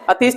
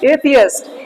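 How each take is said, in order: First: The word is said with two syllables. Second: The word is said with three syllables. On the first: The speaker calls it wrong. "अतीस्ट नहीं बोलना" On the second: The speaker calls it right.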